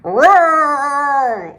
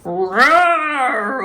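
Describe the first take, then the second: First: Big growling roar; bear roar. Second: Bear growl. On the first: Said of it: "Old Bear roared". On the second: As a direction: growl out the answer. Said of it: "Old Bear growled". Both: A narrator's reading.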